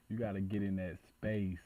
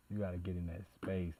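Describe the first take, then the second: No difference in how they are said.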